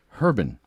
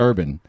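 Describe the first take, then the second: First: The word begins with an h sound. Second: The word begins with a vowel sound. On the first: The name is linked to the word herb. "I like Herban because it's like herb" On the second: This is the name's actual form. "I know it's urban"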